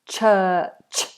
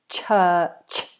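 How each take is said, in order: The two takes are said the same way.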